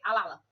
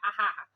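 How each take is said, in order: First: The middle consonants are L sounds. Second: The middle consonants are breathy H-like sounds. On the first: "esse R e trocando pelo L" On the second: "ele acaba substituindo para o R forte"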